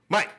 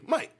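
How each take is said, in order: First: It is said in a deep, stern dad voice. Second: It is said in his normal voice.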